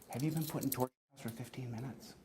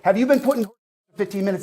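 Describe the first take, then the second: First: The question is said in a calmer, quieter voice. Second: The question is said in a raised, loud voice. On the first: "Let me try it like this" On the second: "Why are you raising your voice?"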